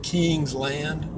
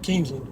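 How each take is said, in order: First: It is said as two separate words. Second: It is run together as one word. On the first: This is how outsiders would say it. "most people would pronounce it King's Land" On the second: This is how the locals say it. "they just kind of bunch it all together"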